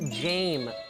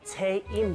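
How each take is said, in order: First: The name ends with a final s sound. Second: The name ends without a final s sound. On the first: The speaker calls it right. "It's James" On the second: The speaker calls it wrong. "Jaim 말고"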